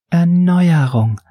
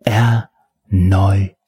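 First: High, drawn-out timid announcement; timid, submissive. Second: "Erneuerung" broken into slow, separate syllables; savoring each syllable. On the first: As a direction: shyly intone it, pitched up and slow. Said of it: "verkündete der Unterwürfige schüchtern". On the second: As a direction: relish "Erneuerung" syllable by syllable, pausing between them. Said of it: "betonte genussvoll die Silben". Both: A narrator's reading.

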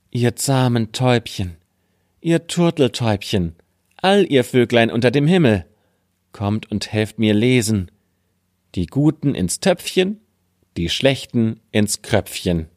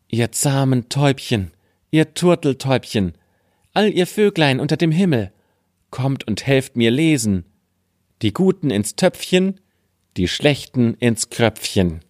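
First: Lightly raised call to the birds; a gentler second call. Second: High, pleading call to the birds; sing-song call, rising high. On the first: (leicht gehobener Ruf an die Vögel) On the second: (hoher, flehender Ruf an die Vögel) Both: Acted.

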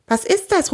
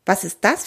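First: High-pitched, startled question; startled call. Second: Said in the usual way. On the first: A narrator's reading. Theo and Kunibert suddenly call out together, startled. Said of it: "rufen Theo und Kunibert plötzlich gleichzeitig". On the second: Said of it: "fragt Kunibert".

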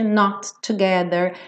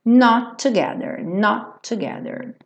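First: "not together" with both T's released; over-separated "not; two separate T's. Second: "not together" sharing one T; single joined T. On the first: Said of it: "nada de not together". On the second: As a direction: model "not together" linked, no double T. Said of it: "não vai fazer dois T's". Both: Shown as a demonstration.

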